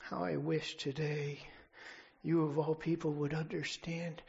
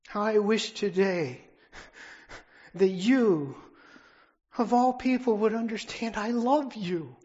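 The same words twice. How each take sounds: First: Said in the usual way. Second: How I wish today shouted with rising pitch; preacher's climactic cry of love; impassioned loud refrain. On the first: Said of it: "He says". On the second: Real, not acted. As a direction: swell into a passionate plea. Repeated refrain, final climax.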